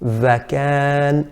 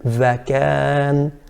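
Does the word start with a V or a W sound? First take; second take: V; V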